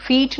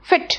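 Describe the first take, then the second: First: फीट with a long stretched ee, like feet; wrong long vowel. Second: Said in the usual way. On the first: Shown as a demonstration. Teacher demonstrating the wrong fit to students, long ee. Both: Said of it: "फीट नहीं बोलते हैं".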